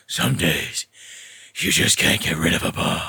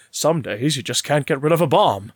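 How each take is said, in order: First: Much lower, growled Bale-style Batman; growly Batman voice. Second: A light hint of Adam West's Batman; Adam West line. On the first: Retold or imitated. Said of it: "with his growly voice". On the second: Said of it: "he says at one point".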